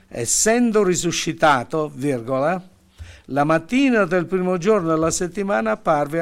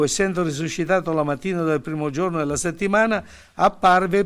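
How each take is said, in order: First: The pause comes after risuscitato. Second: The pause comes after settimana. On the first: The morning belongs to the appearing, not the rising. The speaker calls it right. "la mettiamo subito dopo la parola risuscitato" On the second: The morning belongs to the rising, not the appearing. The speaker calls it wrong. "a motivo della virgola"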